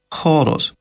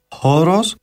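First: It begins with a raspy throaty ch sound. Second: It begins with a soft breathy h sound. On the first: "τον ελληνικό θόγκον που γράφουμε με το γράμμα χ" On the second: "τον αρχαιοελληνικό δασίν θόγκον"

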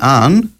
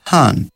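First: The word begins directly with a vowel. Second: The word begins with a breathy h sound. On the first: "Αντί «αν»" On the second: "λαλεί «αν»"

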